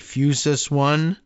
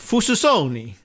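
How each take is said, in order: First: It is read as English words, 'Fusus One'. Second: It is read as one Italian-sounding word. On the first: The speaker calls it right. "I assume" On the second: The speaker calls it wrong. "unless it's Italian"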